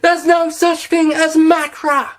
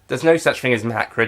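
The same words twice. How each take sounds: First: It is said in an overdone, yelling voice. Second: It is said in a calm, normal voice.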